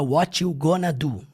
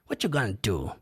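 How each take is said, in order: First: The word gonna is said fully with both syllables. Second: The word gonna is clipped to sound like gone. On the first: "ele não fala what you gonna do" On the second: "eles abreviam muito pra gone. ... Desse jeito que ele fala"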